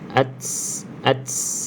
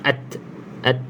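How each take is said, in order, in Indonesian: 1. Bunyi t di akhir mendesis seperti bunyi s. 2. Bunyi t di akhir disertai hembusan napas yang ringan. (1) "itu dah ada bunyi sin" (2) "bunyi angin ta"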